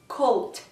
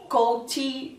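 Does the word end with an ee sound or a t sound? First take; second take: t sound; ee sound. First: The word ends cleanly on a t sound. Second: The word ends with an added ee sound. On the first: The speaker calls it right. "não é um i que tem no final, é o t" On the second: The speaker calls it wrong. "ela coloca muito os is nos finais"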